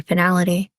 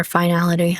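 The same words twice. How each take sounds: First: "finality" opening with a short fin-; short-i pronunciation. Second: "finality" opening like fine; long-i pronunciation. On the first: Narrator reading aloud, trying "finality" with short-i fin-. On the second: Narrator second-guessing the word, "finality" said as fine-ality. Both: Shown as a demonstration.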